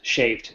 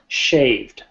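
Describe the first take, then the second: First: The word is said quickly and rushed. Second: The word is said slowly and clearly. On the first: The speaker calls it wrong. "I'm speaking fast, I'm rushing through them" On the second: The speaker calls it right. "More like"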